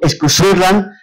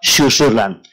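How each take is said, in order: First: The word begins with an 'esk' sound. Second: The word begins with a 'sh' sound. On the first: It is read automatically from the spelling. The speaker calls it wrong. "uno lo automáticamente escu" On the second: It is read as an Andalusi speaker would say it. The speaker calls it right. "un andalusí hubiese pronunciado"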